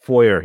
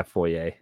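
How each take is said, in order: First: "Foyer" ending in an r, "FOY-er"; anglicized "Foyer". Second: "foyer" ending in ay, "FOY-ay"; French-style "foyer". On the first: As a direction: end "Foyer" on a hard "er". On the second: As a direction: end "foyer" on "ay", with no r. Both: Shown as a demonstration. Contrasts two pronunciations of foyer.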